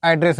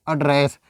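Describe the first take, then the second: First: "एड्रेस" as AD-ress; noun pronunciation. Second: "एड्रेस" as uh-DRESS; short uh to open "एड्रेस", the verb form; verb pronunciation. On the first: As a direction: open front vowel to start "एड्रेस", the noun form. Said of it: "जब हम पता बताएंगे". ("एड्रेस" को पते वाला "ऐड्रेस" बोलें) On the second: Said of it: "इसको हम क्या प्रोनाउंसिएशन करेंगे". ("एड्रेस" को क्रिया वाला "अड्रेस" बोलें) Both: Shown as a demonstration.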